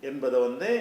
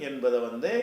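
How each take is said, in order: No difference in how they are said.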